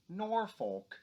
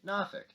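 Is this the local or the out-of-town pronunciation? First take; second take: out-of-town; local. First: It is said the way out-of-towners say it. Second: It is said the way locals say it.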